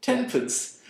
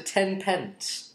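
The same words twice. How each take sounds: First: TEN PENCE run together as "TEN-punce"; mock old-fashioned "tenpunce", pitched high; old-fashioned pronunciation. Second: TEN PENCE with a full, clear "pence"; higher, questioning TEN PENCE, two separate words; both words sounded in full. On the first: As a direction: squash "pence" to a weak "punce". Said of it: "in that sort of old-fashioned". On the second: Shown as a demonstration. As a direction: give "pence" its whole vowel, pitched up. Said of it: "What am I supposed to".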